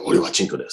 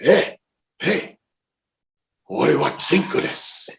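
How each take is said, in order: First: Said in the usual way. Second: High-pitched mock call to a driver. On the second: Passenger calling to taxi driver in practised Japanese, high call. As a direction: call out the foreign phrase, voice pitched up.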